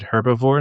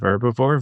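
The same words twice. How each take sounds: First: It is said with a British pronunciation. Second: It is said with an American pronunciation.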